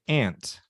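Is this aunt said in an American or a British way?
American. It is said with an American pronunciation. "most Americans say aunt"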